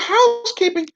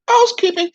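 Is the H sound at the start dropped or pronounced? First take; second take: pronounced; dropped. First: The opening H sound is clearly pronounced. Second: The opening H sound is left out. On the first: The speaker calls it right. "instead of housekeeping" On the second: The speaker calls it wrong. "She never pronounced the H"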